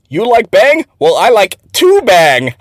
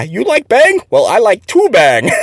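First: Higher, slow mock broken English, leaning on "two"; deadpan slow accent imitation. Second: High mock broken English, laughing on "two bang"; giggly accent imitation. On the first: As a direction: drawl out the boss's accented punchline. Quoting boss's accented joke. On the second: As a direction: retell the punchline while giggling. Retelling the same quote.

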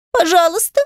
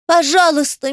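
First: High, pleading whimper; sobbing plea. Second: Tearful plea. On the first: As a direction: beg through a sob. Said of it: "всхлипнула девочка". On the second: Adel pleading in tears. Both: Acted.

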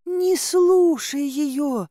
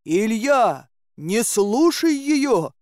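First: High, long drawn-out plea; pleading maiden. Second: High, drawn-out warning call; crying out. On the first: Girl begs Dobrynya to ignore heroine, high pleading. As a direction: beg in a high, stretched girlish voice. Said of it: "взмолилась девушка". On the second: Dobrynya warns Ilya off the maiden, crying out. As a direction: call out urgently, stretching each word. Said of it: "крикнул он". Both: A narrator's reading.

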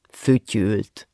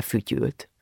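First: "fütyült" set apart, pitched lower; "fütyült" dropped low as a pointed confirmation; emphatic repeat. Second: Said in the usual way. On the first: A narrator's reading. Narrator confirms and repeats the word.

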